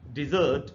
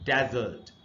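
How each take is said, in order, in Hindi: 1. Stress दूसरे अक्षर पर है। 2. स्ट्रेस पहले अक्षर पर है। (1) "दूसरा जो सिलेबल है ये, यहां पर स्ट्रेस है" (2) "पहला जो सिंबल है इसी पर प्राइमरी स्ट्रेस"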